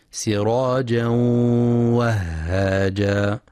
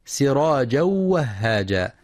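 First: Slow سراجا وهاجا with a held nasal hum into the w; merging with ghunnah. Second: سراجا وهاجا joined quickly with no nasal hum; merging without ghunnah. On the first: Teacher showing correct merging, long ghunnah in سراجا وهاجا. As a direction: hold the nasal glide between سراجا and وهاجا. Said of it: "ينتبه القارئ لغنة الإدغام". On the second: Teacher showing the error, no ghunnah in سراجا وهاجا. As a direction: merge سراجا straight into the w of وهاجا, unheld. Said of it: "بإدغام بغير غنة". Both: Shown as a demonstration.

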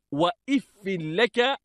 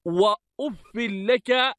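First: وإف with opening "i", "wa-iffi"; kasra on alif. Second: وأف with opening "u", "wa-uffi"; first reading, "uffi". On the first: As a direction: say وإف لك as "wa-if-fi laka". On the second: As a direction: say وأف لك slowly as "wa-uf-fi laka". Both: Shown as a demonstration. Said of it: "بكسر الألف".

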